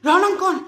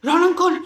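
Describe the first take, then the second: No difference in how they are said.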